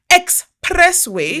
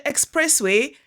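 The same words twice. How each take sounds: First: "expressway" stretched out slow, high and loud; drawn-out, punched "expressway"; emphatic repeat. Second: Said in the usual way. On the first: Real, not acted. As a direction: hammer "expressway" syllable by syllable in disbelief.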